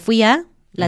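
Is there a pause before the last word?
yes. It breaks with a pause before the last word. The speaker calls it wrong. "No tendría sentido decir"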